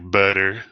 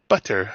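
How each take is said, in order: First: The middle consonant sounds like a soft D. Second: The middle consonant is a crisp, hard T. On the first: An American is speaking. "Americans like butter" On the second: A British person is speaking. "Brits are like butter"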